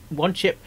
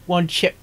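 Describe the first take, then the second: No difference in how they are said.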